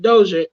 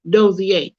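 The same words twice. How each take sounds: First: The name is said the usual English way. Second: The name is said the French way. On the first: This is how most people say it. The speaker calls it wrong. "most people pronounce it Dozier" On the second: This is the proper way to say it. The speaker calls it right. "It is properly pronounced Dozier"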